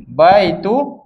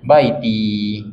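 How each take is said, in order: First: Baitu with final u, the wrong ending; teacher shows the wrong form. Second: Baiti with final i, the right ending; teacher gives the corrected word; correct form. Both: Shown as a demonstration. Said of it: "bukan baitu".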